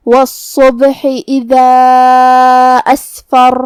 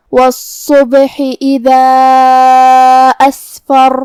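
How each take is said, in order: First: Very slow chant with a heavy doubled ص in والصبح; measured Quranic chant; tajweed recitation. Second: Very slow chant with a breathy س in Asfar; measured Quranic chant; tajweed recitation. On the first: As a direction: draw it out melodically. Recites next verse. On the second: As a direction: recite slowly, madd stretched. Recites verse again. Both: Shown as a demonstration.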